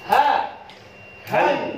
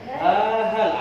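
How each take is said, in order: First: A clear pause separates the two syllables. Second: The two syllables run together without a pause. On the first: The speaker calls it right. "Harus ada jeda" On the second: The speaker calls it wrong. "bukan ha hal. Rawan sekali anak-anak kalau dibaca ha hal"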